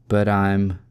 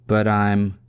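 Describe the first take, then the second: No difference in how they are said.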